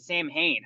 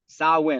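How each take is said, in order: First: It sounds like 'Sam Hain', with an h. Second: It sounds like 'Sa-win', with a w sound. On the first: The speaker calls it wrong. "I keep calling it Sam Hain. I guess I've been saying it wrong" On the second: The speaker calls it right. "there's no W's in there, but all right"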